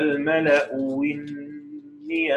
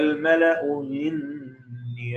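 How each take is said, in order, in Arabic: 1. الهمزة الثانية تتحول إلى صوت واو. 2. الهمزة الثانية تُسهَّل بين بين. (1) "الإبدال واو المكسورة" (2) "أو إنه بيسهلها"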